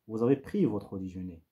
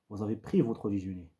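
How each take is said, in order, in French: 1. La hauteur descend à la fin. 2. La hauteur descend à la fin.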